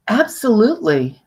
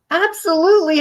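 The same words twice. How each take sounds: First: Said in the usual way. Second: Mock emphatic yes. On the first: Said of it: "And she said to me". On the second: Shown as a demonstration. Speaker re-enacting client's hollow yes, mock emphatic. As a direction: sell "Absolutely" hard while the head says no. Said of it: "Her head is shaking no".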